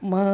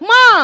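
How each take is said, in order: First: It is said softly at a steady pitch. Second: It is shouted loudly with a raised voice. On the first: The child calls politely and calmly. The speaker calls it right. "குரல் உயர்த்தவே கூடாது" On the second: The child calls rudely and demandingly. The speaker calls it wrong. "அதுதான் கத்துது"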